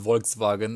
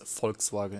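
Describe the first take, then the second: First: The first letter sounds like a W. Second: The first letter sounds like an F. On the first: "if you would speak it, uh, pronounce it like a Swedish way" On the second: "but it's Volkswagen in German. It's kind of like an F"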